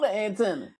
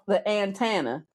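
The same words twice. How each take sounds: First: It is said in a standard accent. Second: It is said in a Southern accent.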